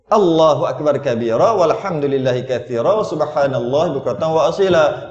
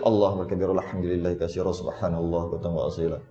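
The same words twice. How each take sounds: First: It is recited at a normal pace. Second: It is recited quickly.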